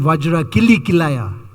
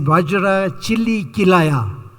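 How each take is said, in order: First: The second word begins with a 'k' sound. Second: The second word begins with a 'ch' sound. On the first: The speaker calls it right. "instead of saying" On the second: The speaker calls it wrong. "his pronunciation was wrong"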